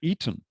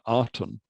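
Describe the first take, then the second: First: The name begins with an E sound. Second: The name begins with an A sound. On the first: The speaker calls it right. "more accurately uh, pronounced as an E rather than A" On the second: The speaker calls it wrong. "is called the uh"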